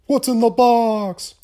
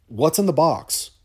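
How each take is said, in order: First: "What's in the box?" yelled much higher and louder, slowed; anguished movie scream. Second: Raised, strained quote of "What's in the box?" as a first try; movie quote impression. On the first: Host hams up the Seven finale for listeners, anguished slow scream. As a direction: bellow it like the desperate detective in Seven. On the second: Host quotes Seven to listeners, rising anguish. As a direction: start the line from Seven a bit higher, holding back. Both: Shown as a demonstration. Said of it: "Had to do it, sorry".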